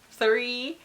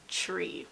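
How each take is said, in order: First: It begins with a th sound. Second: It begins with a plain t sound. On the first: "the word three" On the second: "Jamaicans pronounce the word three, tree"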